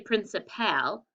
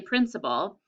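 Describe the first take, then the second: First: The final syllable 'pal' is stressed. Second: The final syllable 'pal' is unstressed. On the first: The speaker calls it wrong. "we don't say principal" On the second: The speaker calls it right. "we say principal"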